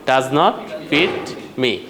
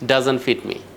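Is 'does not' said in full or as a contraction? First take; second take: full form; contraction. First: Both words are said in full, as two words. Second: The two words are contracted into one short word. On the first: "so আপনি ডাজ নট বলে এটা বড় হয়" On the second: "ডাজন্ট বলে আরো বেশি আমেরিকানদের মতো শোনায়"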